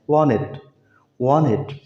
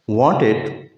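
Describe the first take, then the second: First: "वांटेड" said as "wanned", no T; American "वांटेड" with only the N heard; American silent T. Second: Said in the usual way. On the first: Shown as a demonstration. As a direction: drop the T after N in "वांटेड". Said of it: "टी की आवाज़ नहीं देते American". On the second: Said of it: "उसके बाद टी है".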